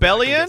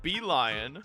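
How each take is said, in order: First: The name begins with a short 'bell' sound. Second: The name begins with a long 'bee' sound. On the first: The speaker calls it right. "isn't it called Bellion?" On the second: The speaker calls it wrong. "she's just pronouncing it wrong. It's definitely not Bee Lion"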